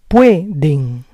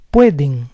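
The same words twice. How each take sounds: First: Pueden split as PUE-den; syllable by syllable. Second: Said in the usual way. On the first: Shown as a demonstration. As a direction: say Pueden in parts, stressing PUE. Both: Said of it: "stress is on the second to last syllable".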